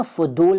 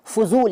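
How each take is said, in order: First: फदूल, slow, with d replacing z. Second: Said in the usual way. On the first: Shown as a demonstration. Teacher showing the rejected form, फदूल with d for z. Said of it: "नहीं कहते". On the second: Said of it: "फदूल नहीं कहते".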